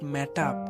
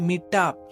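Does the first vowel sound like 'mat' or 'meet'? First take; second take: mat; meet. First: The first vowel sounds like 'a' in mat. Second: The first vowel sounds like 'ee' in meet. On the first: The speaker calls it wrong. "Not ম্যাটআপ" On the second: The speaker calls it right. "ভাই এটা মিটআপ"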